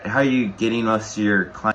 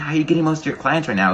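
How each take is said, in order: First: It sounds hesitant and low in energy. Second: It sounds confident and enthusiastic.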